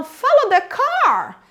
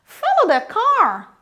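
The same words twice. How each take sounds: First: "car" lifted higher as the focus; slow, raise the melody on "car"; "Follow the car" with the tune climbing on "car"; pitch rise on car. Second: Slow "Follow the car" with "car" lifted; pitch rise on car. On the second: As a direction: rise into "car" as the focus word. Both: Shown as a demonstration. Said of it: "eu subo no car".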